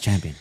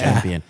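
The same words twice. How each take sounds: First: The word is said plainly, without emphasis. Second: The word is said with strong emphasis.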